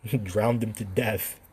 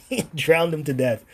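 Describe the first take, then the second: First: Slow, softer line through a chuckle; laughing softly. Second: Higher and louder through the laugh; louder laughing take. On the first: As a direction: quieter chuckling take. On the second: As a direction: burst out with it, laughing. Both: Real, not acted. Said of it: "I'm not laughing in a very sinister way".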